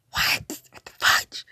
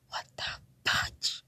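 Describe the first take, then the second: First: Punchy, breath-heavy outburst of disbelief; mock-appalled exclamation; louder disbelief. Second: Slow, unvoiced stunned whisper; whispered, drawn-out bewilderment; hushed disbelief. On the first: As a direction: blurt it out, baffled. Repeats the reaction more forcefully. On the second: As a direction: draw it out under your breath in disbelief. Reacting to a love declaration.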